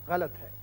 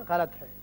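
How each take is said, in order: Both takes have the same delivery.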